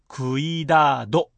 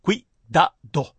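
First: クイダド stretched into ku-ii-daa-do; wrong, drawn-out vowels. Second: クイダド as three short beats, kui-da-do; correct three beats. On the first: Teacher shows what to avoid, クイダド with separated long vowels. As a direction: split the u and i of クイダド and drag the vowels. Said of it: "のように発音しないでください". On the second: Teacher gives the right model, クイダド in three beats. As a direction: glide クイ as one syllable in クイダド. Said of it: "クイダドですよ". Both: Shown as a demonstration.

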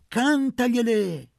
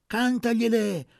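First: High, very loud and slowed, the peak of the chant; women urge Luca on, loudest and slowest; building cheer. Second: High, loud call; women urge Luca on, high and loud; cheering. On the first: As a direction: hold it out as the climax. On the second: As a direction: shout the encouragement. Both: A narrator's reading.

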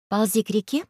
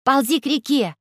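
First: Said in the usual way. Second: High shouted command; Alice shouting at the robot. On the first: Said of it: "«Ползи к реке!» — крикнула Алиса". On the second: Acted. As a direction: order the robot to crawl to the river. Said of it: "крикнула Алиса".

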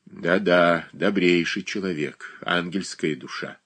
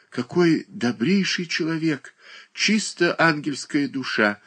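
First: Mocking echo of the praise; bitter irony. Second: High, admiring exclamation; sincere praise. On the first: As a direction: repeat the words with scorn. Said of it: "нервно засмеялась". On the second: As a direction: gush in earnest. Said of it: "воскликнула". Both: A narrator's reading.

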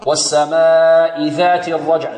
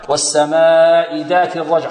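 First: Slow chant, tongue tip between teeth for "ذات"; correct ذال. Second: "ذات" with a hard d, like "daat"; wrong ذال. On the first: Teacher correcting the error for students, careful correct recitation. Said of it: "ذا، ذا". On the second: Teacher showing a common error before calling it wrong, mispronounced demo. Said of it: "خطأ". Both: Shown as a demonstration.

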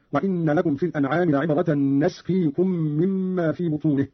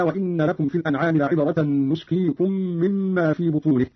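First: نسقيكم said "nasqikum", opening on na; fatha on nun. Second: Said in the usual way. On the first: Shown as a demonstration. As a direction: start نسقيكم with "na", not "nu". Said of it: "بفتح النون هكذا". (فتح النون في نسقيكم) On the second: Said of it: "قرأ قالون بفتح النون".

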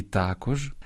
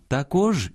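First: "також" stressed on the first syllable, тАкож. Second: "також" stressed on the last syllable, такОж; stress on second syllable. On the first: Host showing parallel stresses, "також" with first-syllable stress. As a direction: lean on the А of "також". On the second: Host showing parallel stresses, "також" with final-syllable stress. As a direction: lean on the О of "також". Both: Shown as a demonstration. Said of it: "подвійне або паралельне наголошування".

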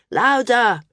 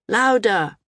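First: Louder, higher call from the back; shouted demand. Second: Repeated shout. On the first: Back-row flyers calling to the mumbling speaker, loud shout. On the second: Back-row flyers repeating their demand to speak up, shouting. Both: A narrator's reading. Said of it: "the flyers in the back shouted".

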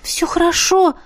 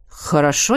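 First: Flustered, pitched-up reassurance; a shy, awkward high "хорошо"; embarrassed. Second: Said in the usual way. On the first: Acted. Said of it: "смутилась девушка".

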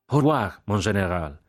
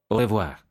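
First: Cried farewell. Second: Said in the usual way. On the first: A narrator's reading. Jack taking leave of the general, crying out. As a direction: call out the farewell with a lift at the start. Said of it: "gridò Jack afferrando la mano". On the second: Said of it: "disse il generale Guillaume".

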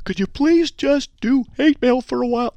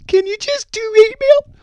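First: Put-on much higher falsetto girl voice; high put-on woman's voice. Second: Very high, loud, slow falsetto woman; high loud mock woman's plea; girl voice again. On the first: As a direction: squeak it out like a woman asking nicely. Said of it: "that's a girl voice". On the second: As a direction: push the falsetto all the way. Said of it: "Let me try it again".

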